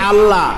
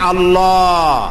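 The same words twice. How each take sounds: First: The word is said thin, without lip rounding. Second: The word is said full, with rounded lips. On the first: The speaker calls it wrong. "তাহলে এটা অশুদ্ধ" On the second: The speaker calls it right. "বলতে গিয়ে মুখটা গোল হয়ে যাবে"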